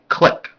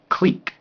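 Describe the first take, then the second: First: It is said with the American pronunciation. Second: It is said with the British, French-style pronunciation. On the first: "In the U S, we say clique" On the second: "Here, they say clique, because that's the proper French way"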